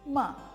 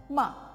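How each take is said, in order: Both takes have the same delivery.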